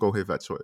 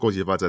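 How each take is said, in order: First: It is said in Cantonese pronunciation. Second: It is said in Mandarin pronunciation.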